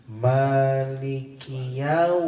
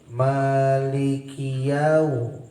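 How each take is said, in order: The two takes are said the same way.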